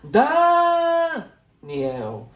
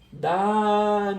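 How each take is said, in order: First: The stress is on the first syllable. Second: The stress is on the last syllable. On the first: "o meu som mais forte seria aqui, ó, no Dá? Seria assim" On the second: "Repara que o el é a palavra mais forte"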